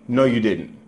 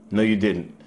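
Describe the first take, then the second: No difference in how they are said.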